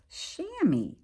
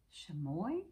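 First: "chamois" said as SHAM-ee, stress on the first syllable; "chamois" as SHAM-ee, the corrected form; corrected pronunciation. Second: "Chamois" said as sha-MOY, stress on the end; "Chamois" as shuh-MOY, a tentative guess; first guess at pronunciation. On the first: Teacher corrects the animal name for the boys and girls, clearly. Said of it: "this is actually pronounced chamois". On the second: Teacher guesses the animal name for the class, tentatively. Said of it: "I guess is how you pronounce it". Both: Real, not acted.

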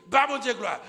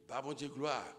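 First: Glory cry, much higher and louder; praise shout. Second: Said in the usual way. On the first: Acted. The mother praising God, loud shout.

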